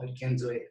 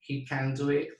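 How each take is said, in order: First: Can reduced and unstressed, He can do it; just state it, can weak. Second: Can stressed strongly, He can do it. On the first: Teacher shows weak can in a simple statement. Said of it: "simplemente afirmando". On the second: Teacher shows emphatic can. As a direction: insist that he can. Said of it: "que lo puede hacer, te lo estoy diciendo". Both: Shown as a demonstration.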